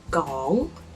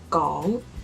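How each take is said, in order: Both takes have the same delivery.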